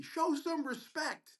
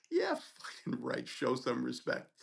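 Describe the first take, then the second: First: Mock scream. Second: Slow, low-key scornful echo; defiant retort. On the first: Other resident yelling down the hallway at the student, mock scream. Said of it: "screams down the hallway". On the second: Retold or imitated. Student answering the resident who yelled at him, defiant. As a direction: throw it back slowly, unimpressed.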